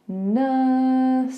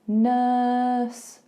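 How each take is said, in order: The two takes are said the same way.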